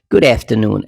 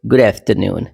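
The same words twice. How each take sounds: First: आफ्टरनून starting on the vowel of cat; American pronunciation. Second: आफ्टरनून starting with "ah"; British "ah" sound. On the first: Teacher shows the American greeting, American pronunciation. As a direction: say आफ्टरनून as "aef-ter-noon". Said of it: "American". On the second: Teacher contrasts the greeting, British pronunciation. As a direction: say आफ्टरनून as "ahf-ter-noon". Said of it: "आ और ए याद रखना". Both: Shown as a demonstration.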